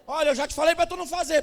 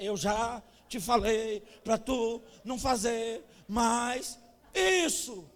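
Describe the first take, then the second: First: Louder, fast, the whole sentence in one go; whole sentence at once. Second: Slow, each syllable of "Eu já te falei pra tu não fazer mais isso" hit separately. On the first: Mother scolding, the whole sentence said fast and loud. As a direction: rattle off the scolding quickly in one go. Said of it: "em vez de dizer a frase toda". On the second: Mother scolding her child, slowly syllable by syllable. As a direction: space out every syllable like a spanking rhythm. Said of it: "Ela ia sílaba por sílaba". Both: Shown as a demonstration.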